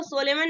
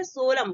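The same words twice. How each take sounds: First: सोलेमन ending on a sounded N; mispronounced solemn, 'so-le-man'; wrong pronunciation. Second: सोलम ending on M; silent N. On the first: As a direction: say सोलेमन in three syllables, N heard. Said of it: "सोलेमन नहीं बोलेंगे". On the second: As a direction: say सोलम slowly, no N at the end. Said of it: "इसको क्या बोलेंगे?". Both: Shown as a demonstration.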